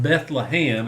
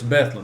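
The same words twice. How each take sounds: First: Bethlehem is said the biblical way. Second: Bethlehem is said the local way. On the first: It names the town in the Christmas story. "not Bethlehem like we read in the Bible" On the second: It names the town and school up there. "that's the way you say it up there"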